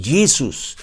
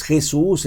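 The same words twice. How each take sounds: First: "Jesus" as an American says it, JEE-zus; English pronunciation. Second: Said in the usual way. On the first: Shown as a demonstration. American corrects how the name is said, English pronunciation. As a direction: switch to English sounds for "Jesus". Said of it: "Un americano, ¿verdad? Podrá decir". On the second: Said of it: "porque es Jesús en español".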